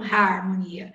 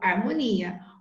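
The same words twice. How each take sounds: First: The word starts with an audible H sound. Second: The word starts directly with the vowel sound. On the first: The speaker calls it wrong. "eu não falo harmonia" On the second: The speaker calls it right. "eu falo harmonia. O H não tem som"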